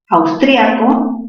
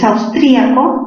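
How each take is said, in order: First: The i joins the a in one syllable. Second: The stressed i is a separate syllable. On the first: "hay un diptongo, es palabra grave" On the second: "tildación disolvente"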